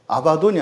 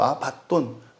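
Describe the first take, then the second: First: The d sound is single, not held. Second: The d sound is doubled and held. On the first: The speaker calls it wrong. "아바돈이 아니고" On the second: The speaker calls it right. "디귿 받침이 받침으로도 있고 초성으로도 있거든요"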